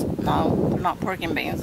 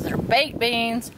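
First: Said in the usual way. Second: "baked" stressed, said slow and deliberate. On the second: Shown as a demonstration. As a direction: hit "baked" slowly to correct.

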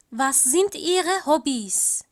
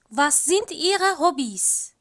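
Both takes have the same delivery.

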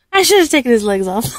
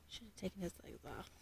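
First: Louder, quick, laughing; laughing realization. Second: Much softer, mumbled aside; muttered to self. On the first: Mom laughing at her own slip. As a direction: laugh it out at yourself. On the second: Mom muttering a mistake to herself. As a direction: mutter it under your breath. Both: Real, not acted.

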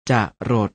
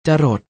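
First: จะรด split as จะ, short pause, รด; จะรด with a clear break after a short จะ; syllable-by-syllable reading. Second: Said in the usual way. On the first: Shown as a demonstration. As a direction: sound out จะรด in two separate syllables. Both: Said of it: "อ่านว่า".

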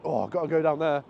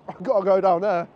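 First: Said in the usual way. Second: Louder and laughing, keener the second time; can't resist, blurt it with a laugh; laughing eager repeat. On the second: Retold or imitated. Vlogger tempted by every side street, louder and laughing. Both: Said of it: "I'm like".

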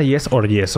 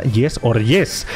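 First: Said in the usual way. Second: "Yes or yes" drawn out very slowly, every word weighted; dramatic slow "Yes or yes" with a rise on the last yes; slow emphatic. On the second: Shown as a demonstration. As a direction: spell out "Yes or yes" like a slogan.

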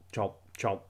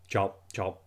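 The two takes are said the same way.

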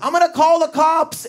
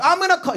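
First: High whiny threat to call cops; Steve threatening. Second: High whiny threat; Steve threatening. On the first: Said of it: "he'd always go like this". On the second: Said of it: "Steve would be like". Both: Retold or imitated. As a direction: squeal it like a flustered old guy.

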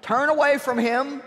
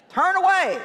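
First: Said in the usual way. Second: "away" flung up high and then dropped, louder; stress on away. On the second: Shown as a demonstration. Preacher urging the crowd to shun the devil, "away" high and forceful. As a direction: hit "away" high and hard then let it fall.

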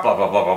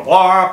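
First: Low chattering head; talking-head puppet. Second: High, loud chattering head; talking-head puppet. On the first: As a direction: play the lower of two talking heads. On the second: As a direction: play the higher of two talking heads. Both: Shown as a demonstration. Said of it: "two talking heads going blah".

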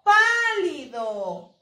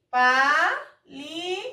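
First: "Pálido" lento y seguido, con PÁ larga y fuerte; énfasis en la sílaba tónica. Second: "Pálido" en tres sílabas sueltas, con pausas; separado por sílabas. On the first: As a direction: alarga la primera sílaba de "Pálido". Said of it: "Aquí tiene su sílaba tónica". (acento muy marcado en la PÁ de "Pálido") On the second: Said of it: "dividirlo por sílabas". (silabeo pausado de "Pálido") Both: Shown as a demonstration.

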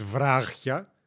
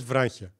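First: Βράχια drawn out slowly, no n before χ; pronunciation without n. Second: Βράχια with a light n sound before χ; pronunciation with n. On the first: Streamer showing viewers how the word is not said, n-less pronunciation. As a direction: stretch βράχια with a clear χ and no n. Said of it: "δεν το λες τόσο συνειδητά το νι". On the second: Streamer showing viewers how the word is said, light n pronunciation. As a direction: say βράχια as vránchia, the n lightly slipped in. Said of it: "λες βράχια". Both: Shown as a demonstration.

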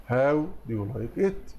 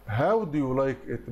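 First: Slow question ending in a rise; slow repeat. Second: Slow, careful question read; slow model answer. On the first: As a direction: repeat it slowly, lifting at the end. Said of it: "teacher repeats correct answer". (تكرار بطيء بنغمة صاعدة) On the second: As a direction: read the question slowly for students. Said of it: "teacher gives correct answer". (قراءة بطيئة للسؤال) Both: Shown as a demonstration.

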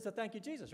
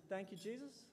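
First: Imitating a coach's confident prompt, slightly higher; matter-of-fact prompt. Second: Imitating a hesitant athlete, soft and questioning; baffled echo. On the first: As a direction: state it as settled, pitch falling at the end. Coach prompts athlete to give thanks. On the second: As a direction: repeat it quietly, rising into an unsure question. Baffled athlete repeats coach's words.

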